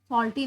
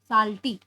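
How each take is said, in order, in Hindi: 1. पहला स्वर एक गोल 'aw' ध्वनि है। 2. पहला स्वर एक खुली 'ah' ध्वनि है। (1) "सॉल्टी नहीं" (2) "एस ए लिखते हो ना"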